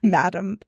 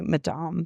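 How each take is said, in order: First: It is said as the plain English word. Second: It is said with a French pronunciation. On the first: "I say madam" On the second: "the French pronunciation would be madame"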